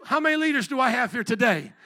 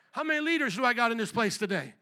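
First: Asking again, much louder; louder repeat. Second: Said in the usual way. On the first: Real, not acted. Preacher pressing a small congregation, louder call. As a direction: push the crowd with a louder call. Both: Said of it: "Come on, four of you?".

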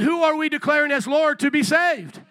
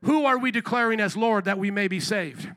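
First: Loud, higher-pitched preacher's call; raised-voice rallying question; shout it out. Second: Said in the usual way. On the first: Real, not acted. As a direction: repeat it forcefully to rouse the congregation. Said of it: "come on, shout it out". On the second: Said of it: "I said".

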